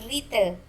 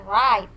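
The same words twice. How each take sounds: First: Write with the w sounded, as wrait; the mistake: write with a w; wrong write. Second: Write said as rait, silent w; the right way: write as rait; correct write. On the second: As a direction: model pronunciation of write. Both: Shown as a demonstration. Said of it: "Jadi bacanya write, bukan write".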